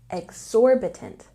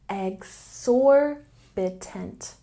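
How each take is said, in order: First: The word is said at normal speed. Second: The word is said slowly and deliberately. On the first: "And normal speed" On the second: "I'm going to say it a little more slowly"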